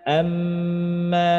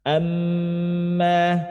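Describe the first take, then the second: No difference in how they are said.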